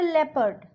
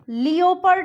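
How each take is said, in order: First: The first syllable sounds like leh. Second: The first syllable sounds like lee-oh. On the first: The speaker calls it right. "इसको हम बोलते हैं लेपर्ड" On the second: The speaker calls it wrong. "लियोपर्ड नहीं बोलते"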